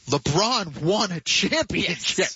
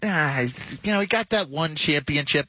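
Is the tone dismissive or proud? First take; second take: proud; dismissive. First: It sounds proud, as if it matters greatly. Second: It sounds dismissive, as if it means nothing.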